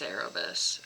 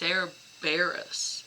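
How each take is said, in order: First: The name is said as Cerebus, without r after Ce. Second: The name is said as Cerberus, with r after Ce. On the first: The speaker calls it wrong. "I always think it's Cerebus" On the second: The speaker calls it right. "it's Cerberus"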